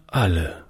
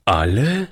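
First: Said in the usual way. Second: "Alle?" asked in astonished disbelief; a boy hearing they are all dead, surprised. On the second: Acted. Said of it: "fragte der Junge verwundert".

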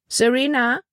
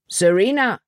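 First: High, rising call of a name; questioning call. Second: Raised, falling call of a name; calling after someone. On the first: Melanie turns round to the girl, questioning high call. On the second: Paul calls after the girl walking away, calling out. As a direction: call after her, pitched up. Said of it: "rief Paul ihr nach". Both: A narrator's reading.

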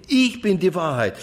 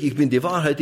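First: „ich“ hoch angesetzt und betont, dann fallend; Betonung auf ich. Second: „Wahrheit“ betont, „ich bin“ beiläufig; Betonung auf Wahrheit. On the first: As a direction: setz den Nachdruck auf „ich“. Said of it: "dann liegt die Betonung immer auf ich". (hoher Akzent auf „ich“, danach abfallend) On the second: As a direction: leg das Gewicht auf „Wahrheit“. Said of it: "da macht man die Betonung auf". (Aufzählung mit Akzent auf „Wahrheit“) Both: Shown as a demonstration.

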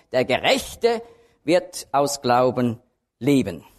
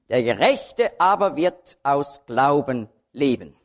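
First: "wird" and "Glauben" weighted, slow and deliberate; emphatic verse reading. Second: Said in the usual way. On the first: Shown as a demonstration. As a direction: lean on "wird aus Glauben" slowly, like a preacher's point. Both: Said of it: "mit der Betonung".

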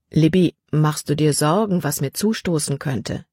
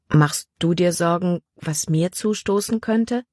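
First: A hint of a gentle father, lightly voiced; father asking gently. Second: Put-on girl asking back. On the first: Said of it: "Dann fragte er". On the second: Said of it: "fragte sie".

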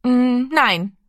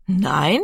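First: Put-on small high boy's no after a hum; hesitate, then dare to refuse; hesitant refusal. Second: Astonished echo with rising question tune. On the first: Little Rami finds courage to answer his big brother, hesitant. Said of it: "woher er den Mut hatte zu antworten". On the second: Big brother Giro repeats Rami's refusal, astonished. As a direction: echo it back in disbelief. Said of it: "wiederholte Giro erstaunt". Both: A narrator's reading.

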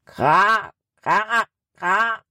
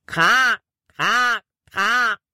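First: Faraway crow caw with a rising end; distant crow. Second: Convincing crow caw imitation; crow call. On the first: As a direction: crow cawing from far off in the forest. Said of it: "antwortete eine Krähe im Wald". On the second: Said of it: "Das klang so echt". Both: A narrator's reading.

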